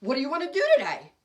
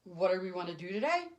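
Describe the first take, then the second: First: Higher, louder, quick and eager; quick, lively invitation; eager question. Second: Lower, unenthused puzzled echo; mock-dull introvert repeating it; blank echo. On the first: Retold or imitated. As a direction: bounce the question at them, keen to go out. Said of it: "because I would ask them". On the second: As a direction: hand the question back without interest. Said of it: "look at me and say".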